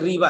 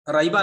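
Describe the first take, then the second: First: The first vowel sounds like 'ee'. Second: The first vowel sounds like 'eye'. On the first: The speaker calls it right. "बल्कि रीबा है" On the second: The speaker calls it wrong. "राइबा नहीं है"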